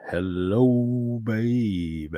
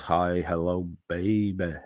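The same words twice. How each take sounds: First: Drawn-out put-on greeting; long, lingering catchphrase call. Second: Said in the usual way. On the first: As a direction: stretch both words out in a silly voice.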